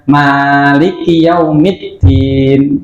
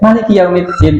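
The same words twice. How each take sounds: First: The first vowel 'ma' is drawn out long. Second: The first vowel 'ma' is cut short. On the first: The speaker calls it right. "harus membaca panjang seperti pada umumnya" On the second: The speaker calls it wrong. "tidak pendek"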